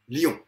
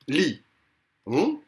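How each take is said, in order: First: The word is said as one syllable. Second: The word is said as two syllables. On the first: This is a synérèse. "Je peux le prononcer en une fois" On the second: This is a diérèse. "quand le euh, groupe vocalique se prononce en deux fois"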